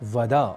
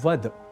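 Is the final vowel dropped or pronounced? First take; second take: pronounced; dropped. First: The final short vowel is pronounced. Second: The final short vowel is dropped. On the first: The speaker calls it right. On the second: The speaker calls it wrong.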